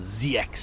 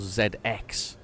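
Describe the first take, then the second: First: The letters are said the American way. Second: The letters are said the speaker's own usual way. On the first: This is how Americans name it. The speaker calls it wrong. "some Americans have got a Z X Spectrum, they call it Z X Spectrum" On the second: This is how the speaker's own community names it. The speaker calls it right. "we call Z X"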